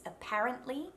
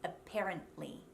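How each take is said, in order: First: "Apparently" with an open A in "par"; Australian short A. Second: "apparently" as "a-pair-ently"; American E vowel. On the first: Coach contrasts two versions, open A in "Apparently". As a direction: open the stressed vowel of "Apparently", tune rising. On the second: Coach contrasts two versions, flat E in "apparently". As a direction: flatten the stressed vowel of "apparently" to E, tune falling. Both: Shown as a demonstration. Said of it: "Can you hear the difference?".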